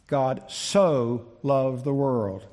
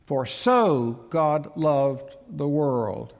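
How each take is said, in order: First: Slow, leaning on the word "so" in "God so loved the world"; stress on so. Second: Slow, "so" moved forward and stressed, "For so God loved the world"; emphatic word order. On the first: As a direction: draw "so" out, slow and weighty. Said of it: "in that little word, so". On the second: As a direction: say it slowly, leaning on "so" up front. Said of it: "this little word here is moved forward". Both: Shown as a demonstration.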